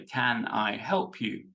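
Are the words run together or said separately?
separately. The words are said more separately.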